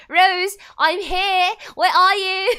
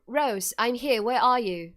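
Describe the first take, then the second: First: Slow, high, very loud mock call; over-the-top singsong shout for a missing friend; hammed-up calling out. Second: Said in the usual way. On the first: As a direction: holler it drawn out, on the edge of laughing.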